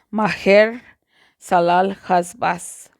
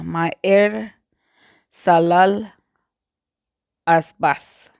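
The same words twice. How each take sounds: First: The H sounds are harsh, like Spanish J. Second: The H sounds are silent. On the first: "Yo prefiero pronunciar la J, la H como J" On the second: "en español no pronunciamos la H como J"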